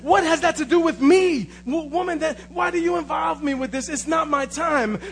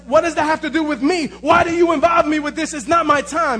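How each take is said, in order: First: It is said in a calm tone. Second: It is said in an angry tone.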